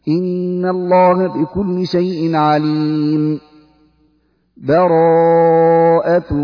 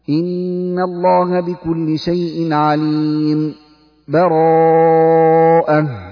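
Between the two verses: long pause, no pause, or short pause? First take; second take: long pause; short pause. First: A full stop with a breath separates them. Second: A brief stop without a breath separates them. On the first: "الوقف على آخر الأنفال مع أخذ نفس" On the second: "سكت لطيفة على آخر الأنفال من غير تنفس"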